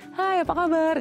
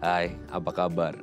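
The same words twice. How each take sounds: First: It is said in a higher, feminine voice. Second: It is said in a lower, masculine voice.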